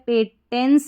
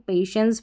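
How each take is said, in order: First: The middle consonant is a hard 't' sound. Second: The middle consonant is a 'sh' sound. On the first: The speaker calls it wrong. "पेटेंस नहीं पढ़ेंगे इसको" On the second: The speaker calls it right. "पेशेंस पढ़ेंगे"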